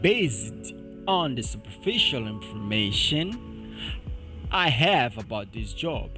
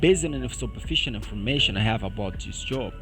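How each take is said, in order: First: The sentence is read at a slow pace. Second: The sentence is read at a fast pace. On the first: "deixa-me ler devagar primeiro" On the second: "deixa-me ler uma vez rápido"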